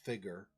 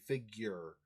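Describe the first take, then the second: First: No y sound follows the g. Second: A y sound follows the g. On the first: "In British English, there's no Y sound, so it's figure" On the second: "In American English, you do a, like a Y sound right after the G"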